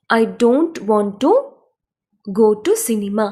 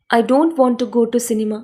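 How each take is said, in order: First: Slow, with a pause after "to"; teacher splitting the sentence; chunked phrasing. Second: Slow, careful English sentence; slow model read. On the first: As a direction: rise on "I don't want to", then "go to cinema". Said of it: "split into chunks for learners". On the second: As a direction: read it slowly for learners to copy. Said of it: "English model sentence, slow read". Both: Shown as a demonstration.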